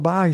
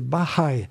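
First: The middle h is silent. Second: The middle h is breathed out audibly. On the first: The speaker calls it wrong. "C'est pas Bahaï" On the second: The speaker calls it right. "Le H est aspiré en plus"

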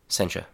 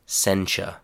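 First: It is said quickly with a relaxed mouth. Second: It is said slowly with clear articulation. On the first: "the reduced form in a very natural way, with my mouth very relaxed" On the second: "the reduced form, but in a slower, cleaner, easier to understand way"

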